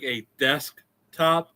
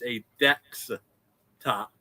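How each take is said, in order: First: It is said in a standard English accent. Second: It is said in an imitated Indian accent. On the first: The speaker calls it right. "instead of like a desktop" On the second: The speaker calls it wrong. "they can never say the English names properly"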